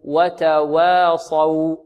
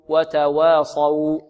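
No difference in how they are said.

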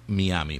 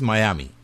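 First: The name is pronounced the Spanish way. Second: The name is pronounced the English way. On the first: "En español, sería Miami" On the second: "en inglés es Miami"

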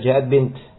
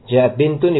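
First: The last word stops on a bare t sound. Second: The last word ends with the vowel-plus-n ending.

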